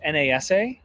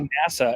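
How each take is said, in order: First: Each letter is spoken separately. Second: It is pronounced as one whole word. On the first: It is treated as an initialism. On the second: It is treated as an acronym.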